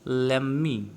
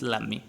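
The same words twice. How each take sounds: First: Both words are said fully and separately. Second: It is reduced to American 'lemme'.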